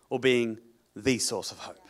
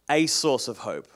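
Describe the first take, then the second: First: "the" stressed, said "thee", falling tune. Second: "a" stressed, said "ay". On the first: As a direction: lean on "the" in "the source of hope". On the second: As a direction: lean on "a" in "a source of hope". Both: Shown as a demonstration. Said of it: "such a big difference".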